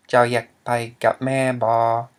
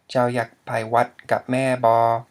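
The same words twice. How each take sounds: First: Thai sentence said slowly and louder, the word wat left out; wrong Thai sentence. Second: Full Thai sentence said louder, with wat in place; corrected Thai sentence. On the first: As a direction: read it slowly but skip wat. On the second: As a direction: read the whole line with wat. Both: Shown as a demonstration. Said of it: "Or, sorry".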